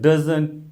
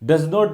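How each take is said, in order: First: It is said as one contracted word. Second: It is said as two full words. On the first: "इनको हम एब्रिवेट करके बोलते हैं" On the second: "इस तरीके के जब सेंटेंस बनते हैं"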